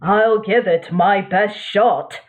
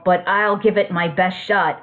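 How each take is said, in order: First: It is said in a put-on narrator voice. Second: It is said in his normal voice.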